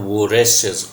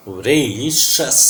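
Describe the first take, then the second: First: Voracious said as vo-RESH-us with an O; wrong O pronunciation. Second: Voracious slowly as vuh-RAY-shus; weak first vowel. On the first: Teacher shows students what to avoid, voracious with an O sound. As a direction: say voracious with a full O in the first syllable. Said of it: "this is not voracious". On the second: Teacher models the correct sounds, voracious slowly as vuh-RAY-shus. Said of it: "this is very weak sound of a". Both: Shown as a demonstration.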